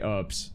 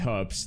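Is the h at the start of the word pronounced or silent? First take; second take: silent; pronounced. First: The word begins without any h sound. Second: The word begins with an audible h sound. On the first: This is how the other group says it. "I don't care about the H. Get rid of it" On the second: This is how the speaker's own group says it. "they don't say herbs"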